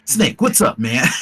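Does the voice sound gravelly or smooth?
gravelly. The voice is rougher, with more gravel.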